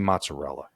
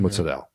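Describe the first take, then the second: First: The word ends with its full final vowel. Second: The word ends without its final vowel. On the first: The speaker calls it wrong. "you can't say mozzarella" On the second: The speaker calls it right. "It's mozzarella. Like it's always been that"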